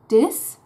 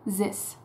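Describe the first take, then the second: First: The word starts with a d sound. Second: The word starts with a z sound. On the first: "either d and dis" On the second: "or z and zis"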